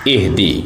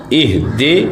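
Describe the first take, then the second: First: اہدی ending in a clear i; correct pronunciation. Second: اہدے ending in e; wrong reading of اہدے; wrong pronunciation. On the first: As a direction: end اہدی on ee. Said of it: "اہدے نہیں پڑھنا". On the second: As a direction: show the mistaken اہدے. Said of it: "یہ غلط ہے۔". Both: Shown as a demonstration.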